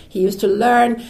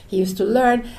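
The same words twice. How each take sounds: The two takes are said the same way.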